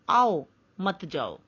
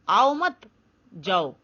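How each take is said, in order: First: There is a pause after aao. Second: There is a pause after mat.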